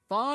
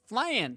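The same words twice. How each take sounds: First: The word is said with a non-American pronunciation. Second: The word is said with an American pronunciation. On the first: The speaker calls it wrong. "it ain't flan" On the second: The speaker calls it right. "Say it like an American"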